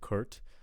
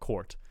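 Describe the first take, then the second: First: The vowel sounds like 'er', as in Kurt. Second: The vowel sounds like 'or', as in core. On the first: The speaker calls it wrong. "I'm kind of hearing Kurt" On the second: The speaker calls it right. "when I'd expect to hear court"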